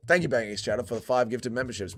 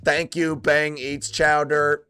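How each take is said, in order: First: Said in the usual way. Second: Slow, measured machine readout; mock chat bot. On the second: Streamer thanking a donor as if a chat bot, slow robotic readout. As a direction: read it out slowly like a bot. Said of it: "chat bot".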